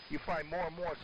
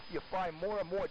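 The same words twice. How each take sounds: The two takes are said the same way.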